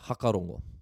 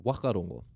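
First: The word begins with an h sound. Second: The word begins with a w sound. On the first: This is how it is said in the north. "So that F sound isn't pronounced" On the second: This is how it is said on the west coast. "drop the H and keep the W"

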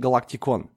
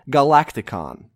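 First: The name is said with a Russian pronunciation. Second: The name is said with an English pronunciation.

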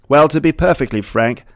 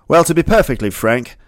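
The two takes are said the same way.

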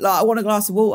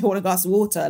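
First: The t in water is dropped. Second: The t in water is clearly pronounced. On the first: This is the speaker's natural everyday way of talking. "that's just how I speak" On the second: This is a put-on voice the speaker refuses to use. "I don't say"

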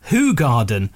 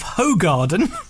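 First: The name is said with a Flemish pronunciation. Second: The name is said with an Anglicized pronunciation. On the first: The speaker calls it right. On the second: The speaker calls it wrong.

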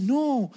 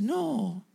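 First: It is said with excited energy. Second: It is said flatly, without enthusiasm.

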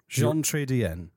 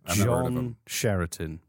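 First: The name is said with French-like sounds. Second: The name is said with anglicized, mangled sounds. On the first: "according to Google, might be wrong" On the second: "I'm going to massacre his name"

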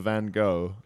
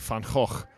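First: It is the American pronunciation of the name. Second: It is the original native pronunciation of the name. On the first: "the Americans go for Van Gogh" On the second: "no one's got the guts to just say Van Gogh. Which is the real"

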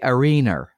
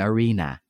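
First: The word ends with an added R sound. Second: The word ends on a plain vowel, no R. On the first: "English people will say arena" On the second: "rather than arena"

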